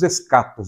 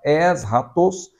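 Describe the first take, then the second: First: It is said in the everyday Portuguese way. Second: It is said with the original Greek pronunciation. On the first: The speaker calls it wrong. "Nós falamos escatos" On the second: The speaker calls it right. "no grego a pronúncia correta seria esta"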